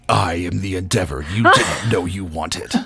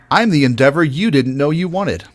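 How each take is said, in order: First: It is said in an intense Transformer-trailer voice. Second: It is said in a lighter, happier inviting voice.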